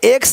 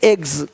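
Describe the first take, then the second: First: The word ends with a ks sound. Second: The word ends with a gz sound. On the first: The speaker calls it wrong. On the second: The speaker calls it right.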